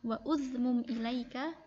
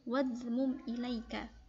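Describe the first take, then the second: First: A separate vowel is sounded after 'wa'. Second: 'Wa' runs straight into the next consonant. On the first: The speaker calls it wrong. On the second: The speaker calls it right. "tapi langsung"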